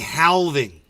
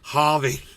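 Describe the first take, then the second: First: The L sound is pronounced in the word. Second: The L sound is left silent in the word. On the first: The speaker calls it wrong. "he was saying halving. And I was like, bro, you don't pronounce the L" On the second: The speaker calls it right. "So now he's just saying halving"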